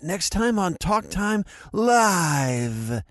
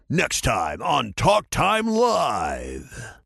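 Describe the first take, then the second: First: It is said hesitantly in Gohan's voice. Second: It is said in a dramatic narrator voice.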